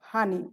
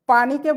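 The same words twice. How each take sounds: First: হানি said with an h where standard Bengali has p; Noakhali dialect form. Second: Said in the usual way. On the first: Shown as a demonstration. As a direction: say হানি, opening with h in place of the p of পানি. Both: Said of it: "পানিকে বলে".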